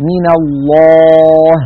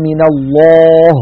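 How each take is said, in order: First: الله with a heavy lam but a light final ه. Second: الله with a wrongly dark final ه; wrong heavy ha. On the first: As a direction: mouth back to rest on the ه of الله. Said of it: "فنقول". (هاء مرققة) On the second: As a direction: show the mistaken heavy هاء in الله. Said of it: "هكذا". (هاء مفخمة خطأ) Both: Shown as a demonstration.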